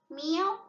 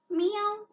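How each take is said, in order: First: Cat meow. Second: Much higher, louder meow; a big squeaky cat meow. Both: Shown as a demonstration. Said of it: "which animal?".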